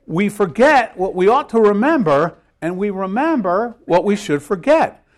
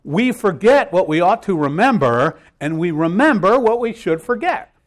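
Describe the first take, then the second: First: Forget and remember hit louder; louder repeat of the key phrase; repeated with emphasis. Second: Forget and remember pushed up and loud; rising emphasis on forget and remember; key phrase, stressed. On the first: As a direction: say it again, stressing each verb. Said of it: "Let me say that again". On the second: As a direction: hammer home the key phrase. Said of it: "here comes the key phrase of the day". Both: Shown as a demonstration.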